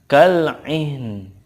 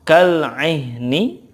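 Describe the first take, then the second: First: The word ends on a faint consonant. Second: The word ends with a short vowel. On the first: Reading stops on the word. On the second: Reading continues past the word.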